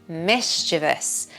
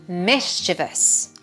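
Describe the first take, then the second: The two takes are said the same way.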